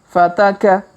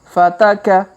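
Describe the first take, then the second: The two takes are said the same way.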